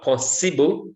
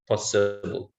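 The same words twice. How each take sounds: First: The second syllable has a full vowel. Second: The second syllable has a schwa vowel. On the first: The speaker calls it wrong. "so it's not possible" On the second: The speaker calls it right. "has the schwa sound"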